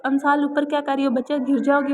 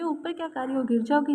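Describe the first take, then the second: First: Louder call up to the roof. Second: Said in the usual way. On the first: Acted. Grandmother calls up to the girl on the roof, louder. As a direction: call her down from below. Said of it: "इस आवाज़ दी".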